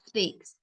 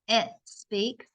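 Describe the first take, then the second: First: The word starts directly with the s sound. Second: An extra vowel sound comes before the s. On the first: The speaker calls it right. "you got to start strong on the S" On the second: The speaker calls it wrong.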